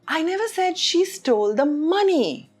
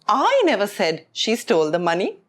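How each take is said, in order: First: The stress falls on the word money. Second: The stress falls on the word I. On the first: She stole something else. "which means she stole something else" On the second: Someone else said it. "which means I didn't say it, someone else said"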